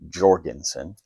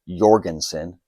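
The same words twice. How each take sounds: First: The name is pronounced the English way. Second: The name is pronounced the Norwegian way. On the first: The speaker calls it wrong. "not Jorgensen" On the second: The speaker calls it right. "is pronounced Jorgensen ... It's Norwegian"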